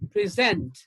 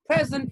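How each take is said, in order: First: The stress is on the second syllable. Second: The stress is on the first syllable. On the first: It is used as a verb. "As a verb" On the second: It is used as an adjective. "as an adjective"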